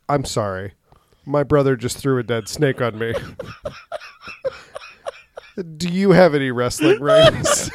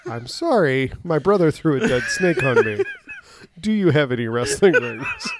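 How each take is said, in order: First: Put-on high girly voice, laughing through it; man doing a woman's voice. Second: High voice, laughing; man doing a woman's voice. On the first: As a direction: squeak it out in a high girl voice. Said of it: "in this high-pitched girl voice". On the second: Retold or imitated. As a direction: retell it in a high giggly voice. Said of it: "I explained it".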